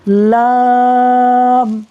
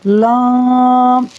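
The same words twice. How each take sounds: First: It is voiced through the mouth, not nasal. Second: It is voiced through the nose, sounding nasal. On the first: The speaker calls it right. "लाम को मुंह से पढ़ना है" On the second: The speaker calls it wrong. "ये नहीं पढ़ना"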